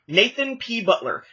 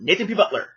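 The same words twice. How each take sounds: First: The name is said as separate words. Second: The name is run together quickly as one word.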